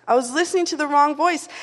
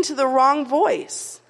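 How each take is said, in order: First: Said in the usual way. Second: "wrong voice" drawn out slowly, pressed; slow emphasis. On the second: Acted. Sermon repeats the point.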